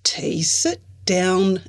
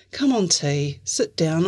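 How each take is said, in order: First: Slow, firm command; Izzy orders T to sit, firm. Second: Gentle coaxing. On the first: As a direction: tell her firmly to sit. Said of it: "Izzy ordered". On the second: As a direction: ask her kindly to sit. Grant gently coaxes T. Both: Acted.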